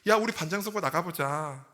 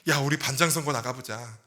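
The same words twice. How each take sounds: First: It is said in a very bright, cheerful voice. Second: It is said in a plain, neutral voice.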